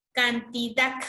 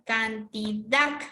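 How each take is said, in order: First: Cantidad sounded out, ending on a firm DAD; measured cantidad, weight on the last syllable; stress on final syllable. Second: Cantidad drawn out slowly, syllable by syllable, rising on DAD; slow stress on final syllable. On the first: Teacher introducing an example word, cantidad stressed on final DAD. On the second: Teacher showing where the stress falls, slow cantidad with long DAD. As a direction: stretch can-ti-DAD, ending on a hard final sound. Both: Shown as a demonstration. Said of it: "En la dac está la mayor fuerza de voz".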